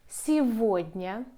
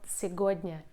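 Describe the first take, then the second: First: The middle consonant is a 'v' sound. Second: The middle consonant is a 'g' sound. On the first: The speaker calls it right. "The letter g ... we pronounce like v" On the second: The speaker calls it wrong. "not сегодня"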